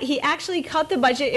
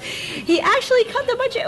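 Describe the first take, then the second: First: Said in the usual way. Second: Much higher, astonished lift on "actually"; high-pitched hammed-up disbelief; mock amazement. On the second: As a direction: sound floored that "actually" happened. Repeats fact in mock amazement.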